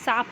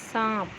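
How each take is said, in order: First: The vowel is said without nasal sound. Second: The vowel is said with nasal sound. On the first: The speaker calls it wrong. "सांप नहीं होता है ना" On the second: The speaker calls it right. "तो क्या होता है सांप"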